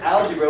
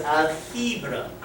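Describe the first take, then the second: First: Said in the usual way. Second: Put-on "algebra" pronounced the old way, unlike English; original pronunciation. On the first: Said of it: "word algebra was algebra". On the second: Shown as a demonstration. Teacher demonstrating the word's origin to class, "algebra" in original pronunciation. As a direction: say "algebra" as a careful foreign word. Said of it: "The original pronunciation of the word".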